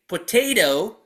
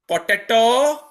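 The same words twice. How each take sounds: First: It is said with an American pronunciation. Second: It is said with a non-American pronunciation. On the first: The speaker calls it right. "the correct pronunciation of English words" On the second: The speaker calls it wrong. "and not potato"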